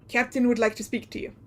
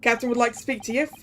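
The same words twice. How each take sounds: First: Lightly voiced Russian sailor; a hint of a Russian sailor. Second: Lightly voiced Russian sailor, quickly; hint of a Russian accent; attempted Russian accent. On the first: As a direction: find the Russian accent, more careful. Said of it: "I lost my Russian sailor voice". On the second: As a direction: try a Russian sailor, not quite landing it. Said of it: "Russian accent".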